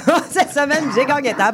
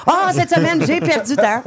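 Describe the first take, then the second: First: Mock Phil voice, giggling; imitating Phil, laughing. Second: Imitating Phil. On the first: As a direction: laugh through the mimicry. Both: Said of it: "on demande à Phil comment ça a été sa semaine".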